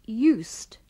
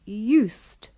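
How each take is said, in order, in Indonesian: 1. Akhirannya bunyi tak bersuara yang mendesis. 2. Akhirannya bunyi tak bersuara yang mendesis.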